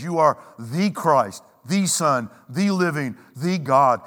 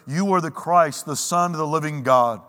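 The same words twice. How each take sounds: First: "the Son, the living, the God" each set apart by pauses; slow emphatic confession, each phrase its own beat; emphatic, broken up. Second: Said in the usual way. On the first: Retold or imitated. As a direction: hammer "the" before each word, pausing between them. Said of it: "He cannot make it more emphatic". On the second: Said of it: "More accurately, he says".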